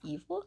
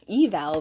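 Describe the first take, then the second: First: The second syllable sounds like 'vil'. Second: The second syllable sounds like 'val'.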